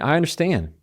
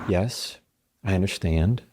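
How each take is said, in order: First: It is said with more visible emotion. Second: It is said calmly, without much emotion.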